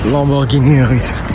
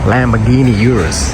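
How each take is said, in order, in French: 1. Il est prononcé avec un accent français. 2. Il est prononcé avec un accent américain.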